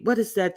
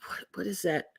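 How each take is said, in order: First: Said in the usual way. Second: Breathy unvoiced whisper; whispered question. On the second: Real, not acted. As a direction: whisper it under your breath. Whispered, then asked aloud.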